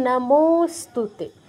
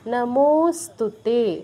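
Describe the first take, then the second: No difference in how they are said.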